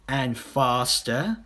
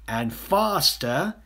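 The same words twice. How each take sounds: The two takes are said the same way.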